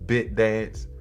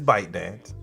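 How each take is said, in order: First: The first syllable has a short 'i' vowel. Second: The first syllable has a long 'eye' vowel. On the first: The speaker calls it wrong. "I always have a problem with that word because I want to say BitDance" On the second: The speaker calls it right. "but it's ByteDance"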